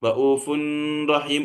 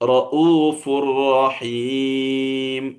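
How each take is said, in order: First: The n sound is heard before the r. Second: The n merges into a doubled r sound. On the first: The speaker calls it wrong. "എന്ന് മണിക്കാൻ പാടില്ല" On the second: The speaker calls it right. "തെൻവീനിന് ശേഷം റാ വന്നതിന്റെ ഉദാഹരണം"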